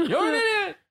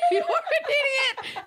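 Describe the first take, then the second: First: High, laughing, near-crying squeal; squealing insult. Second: High, slow, laughing shout; squealing shout. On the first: Acted. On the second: Shown as a demonstration. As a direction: shriek it out, laughing. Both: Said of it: "is the actual correct sound".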